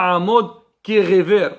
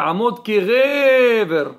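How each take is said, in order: First: The stress falls on the final syllable. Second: The stress falls on the next-to-last syllable. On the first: The speaker calls it wrong. "On dit pas" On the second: The speaker calls it right. "On dit ... Milli'il. On doit monter"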